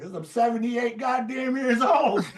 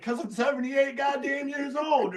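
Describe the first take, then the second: First: Put-on high, laughing through the old player's retort; mock old-man retort dissolving in laughter; laughing punchline. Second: Hammed-up old-timer retort; grumpy old player. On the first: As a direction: crack up while delivering the punchline. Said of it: "And I said". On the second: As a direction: repeat the punchline in the cranky old man's voice. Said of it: "he's just like".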